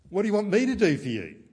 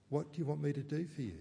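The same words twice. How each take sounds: First: A loud, high, fast exasperated question; exasperated retort. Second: Gentle question. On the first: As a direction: snap it back as if fed up. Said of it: "He doesn't say". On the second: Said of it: "He says". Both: Retold or imitated.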